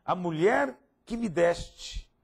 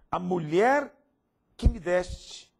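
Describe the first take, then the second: First: Slow, drawn-out quote; slow reading of Adam. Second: Loud accusing cry of the woman; Adam's blame, loud. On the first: Preacher reading Adam's words to the congregation, slow. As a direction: read each word slowly and weightily. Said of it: "Então disse o homem". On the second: Adam answering God, blaming the woman, loud. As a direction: push it out loud, pointing blame. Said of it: "Ele disse". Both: Retold or imitated.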